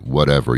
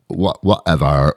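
First: It is said plainly, without marked intonation. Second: It is said with a drawn-out, dismissive valley-girl tune. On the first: The speaker calls it wrong. "you can't say it just like whatever" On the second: The speaker calls it right. "You have to put the intonation in of being stupid. So you have to say, like the valley girl, valley guy kind of thing"

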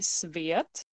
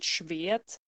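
First: The word begins with an s sound. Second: The word begins with an sh sound. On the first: This is the older written form. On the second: This is the later written form.

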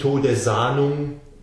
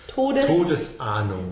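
First: Todes runs smoothly into Ahnung without a break. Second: A glottal stop separates Todes from Ahnung. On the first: The speaker calls it wrong. "also nicht Todesahnung" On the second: The speaker calls it right. "there we get the glottal, the glottis, mittendrin eines Wortes"

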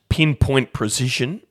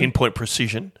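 First: The phrase is said at a normal pace. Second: The phrase is said quickly.

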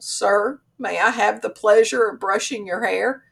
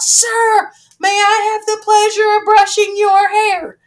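First: It is said softly and demurely. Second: It is blurted out loudly.

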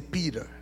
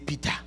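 First: It is said in a local American accent. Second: It is said in the speaker's home-country accent.

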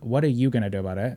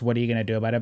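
First: It is said in a light, joking tone. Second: It is said in a serious, threatening tone.

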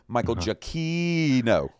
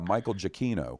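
First: The name is stretched out and drawn out slowly. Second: The name is said at a normal, quick pace. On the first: "drawing it out like that" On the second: "I could just be normal and say"

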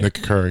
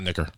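First: The two parts are spoken with a slight gap. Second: The two parts run together as one word. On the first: The speaker calls it right. "you space it out a little bit" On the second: The speaker calls it wrong. "Not Nicker"

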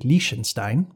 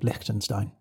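First: The name is said with a German pronunciation. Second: The name is said with an anglicized pronunciation. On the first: "the German, which is the Liechtenstein" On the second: "the Western, which is more Liechtenstein"

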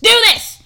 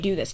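First: It is said loudly and with exaggeration. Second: It is said at a normal volume. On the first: The instruction is repeated as if unheard. "you just yell to tell us to do it again, but louder" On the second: The instruction is given the first time. "give the instruction"

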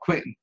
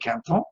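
First: The name is said with a Midwestern American accent. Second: The name is said with a French accent.

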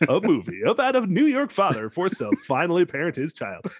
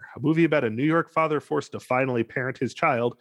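First: It is said in a dramatic announcer voice. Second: It is said in a normal speaking voice.

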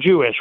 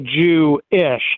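First: It is said quickly as one word. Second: It is said slowly with a break before ish.

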